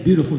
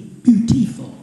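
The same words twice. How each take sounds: First: The word is said in a general accent. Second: The word is said in a Southern drawl. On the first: "They don't say beautiful down south" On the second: "They say beauty, beautiful"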